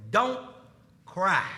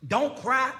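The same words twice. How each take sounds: First: DON'T, a pause, then CRY falling low; "Don't... cry." with a downward close; Jesus's instruction. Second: "Don't cry?" rising on CRY; incredulous question. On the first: Retold or imitated. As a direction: state "Don't" and "cry" apart, as a firm statement. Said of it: "He says". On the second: Acted. Questions Jesus's words back in disbelief.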